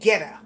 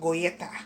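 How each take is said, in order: First: It is said with an English pronunciation. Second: It is said with a Dutch pronunciation. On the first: "it's called Geta in, I guess, English" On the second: "in Dutch we would kind of pronounce it goyeta"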